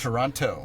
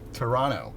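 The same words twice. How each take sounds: First: The second t sound is clearly pronounced. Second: The second t sound is dropped. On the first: This is how outsiders say it. The speaker calls it wrong. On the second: This is how locals say it. The speaker calls it right. "No T"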